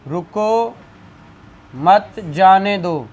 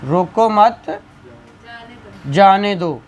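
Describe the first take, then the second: First: रुको alone, clear break, then मत जाने दो as one phrase; pause after रुको. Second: रुको मत together, long break, then जाने दो; group रुको with मत, stop, then release जाने दो; pause after मत. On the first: Teacher reading out an example to students, pause after रुको. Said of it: "कॉमा लगा दूँ". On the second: Teacher showing students the other meaning, long pause after मत. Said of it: "यहाँ का मफ़हूम ही बदल गया". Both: Shown as a demonstration.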